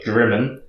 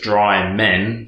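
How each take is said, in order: First: The first syllable sounds like 'drim'. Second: The first syllable sounds like 'dry'. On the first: The speaker calls it right. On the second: The speaker calls it wrong.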